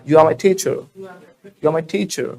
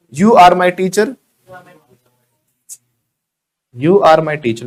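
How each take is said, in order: First: Are as quick "uh", teacher as "thee-chuh"; silent R. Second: Are with clear R, teacher with hard T; sounded R. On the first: Modelling for learners, are without R, airy T in teacher. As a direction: drop the R in are, breathe into teacher. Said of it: "आर नहीं बोलना है ना". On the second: Contrasting the uncorrected way for learners, are with R, hard T in teacher. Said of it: "दो चीजों पे काम करने से कितना सुधार". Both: Shown as a demonstration.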